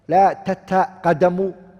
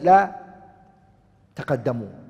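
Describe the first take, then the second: First: The verb begins with two 't' syllables. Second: The verb begins with one 't' syllable. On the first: This is the original full form. "instead of saying" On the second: This is the shortened form that is easier to say. "you just say لا تقدموا with one ta"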